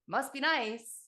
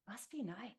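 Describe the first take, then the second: First: It is said in a resentful, sarcastic tone. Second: It is said in a warm, wishful tone. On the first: Others have what I lack, and I resent it. The speaker calls it wrong. "I said a silly thing in my head" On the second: I truly want nicer things too. The speaker calls it right. "I changed the tonality of the words that I said"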